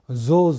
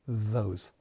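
First: It starts without a soft th sound. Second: It starts with a soft th sound. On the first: The speaker calls it wrong. "those じゃないですね。" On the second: The speaker calls it right. "th は少しあの下を噛む感じで"

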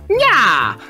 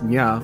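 First: It is said in an exaggerated put-on voice. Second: It is said in an ordinary speaking voice. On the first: "Or do you have to go like" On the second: "do you get to say it in your normal voice?"

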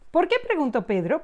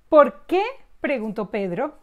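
First: It is said at normal, faster speed. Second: It is said slowly.

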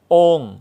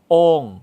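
First: The syllable carries the falling tho tone. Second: The same.

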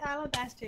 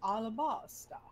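First: The word is said in a plain, normal pronunciation. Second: The word is said imitating another person's accent. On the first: "when he said alabaster" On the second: "it was like alabasta. It was so cute"

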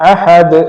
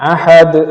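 The two takes are said the same way.

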